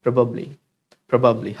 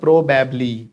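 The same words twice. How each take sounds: First: PROBABLY as "pruh-bub-lee", falling; correct light o. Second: PROBABLY as slow "proh-bab-lee"; wrong o and a. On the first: Teacher correcting the class, light o. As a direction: make the o of PROBABLY light, then "bublee". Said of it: "हल्का सा ओ का sound". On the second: Teacher showing the mistake, "bablee" ending. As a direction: drag PROBABLY with long o and "bab" as in babble. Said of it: "It's not probably". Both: Shown as a demonstration.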